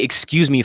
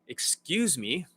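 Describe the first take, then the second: First: It is said fast. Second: It is said slowly.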